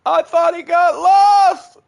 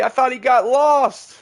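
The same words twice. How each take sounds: First: Slow, high, loud shout. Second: Loud, high, slowed. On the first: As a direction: shout it out in alarm. Repeated shouted. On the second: Repeated, second louder. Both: Real, not acted.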